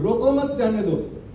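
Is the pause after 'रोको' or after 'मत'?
after मत. The pause comes after 'मत'.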